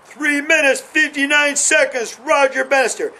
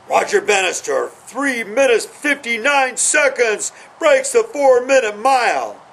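First: High, ringing announcer call of the time; race announcer. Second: Imagined stadium announcer, pitched high and ringing; race announcer. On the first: Runner pictures the announcer calling his time, proclaimed high. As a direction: proclaim the record time like the stadium speaker. Visualizing the record again. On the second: Runner imagines announcer calling his record mile. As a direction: call the record like a track announcer in his head. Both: Retold or imitated.

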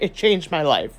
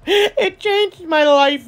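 First: Said in the usual way. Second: High, slow, every word drawn out: "It changed my life"; big dramatic declaration. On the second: Real, not acted. To viewers about Bomb Nails, "It changed my life" sung out high and slow.

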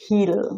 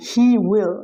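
First: He'll as one syllable, "heel"; contracted form. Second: He will as two full words; uncontracted form. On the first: Teacher showing the contraction, he'll in one syllable. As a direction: squeeze he will into he'll. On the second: Teacher giving the full form, he will in two words. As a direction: say he and will separately, louder. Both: Shown as a demonstration. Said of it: "এটাকে উচ্চারণ করা হচ্ছে".

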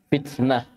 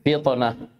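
First: Thin, front T in فتنة; light tā'. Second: Heavy, dark T in فطنة; emphatic ṭā'. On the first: Teacher contrasts tā' mid-word, light T. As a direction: say فتنة with a plain dental T. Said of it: "فرقوا بين الطاء والتاء". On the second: Teacher shows ṭā' mid-word, emphatic T. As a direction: say فطنة with a backed, bouncing T. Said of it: "طأ في وسط الكلمة". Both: Shown as a demonstration.

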